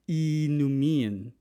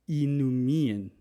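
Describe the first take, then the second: First: The opening is said as a single vowel. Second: The opening is said as a single vowel.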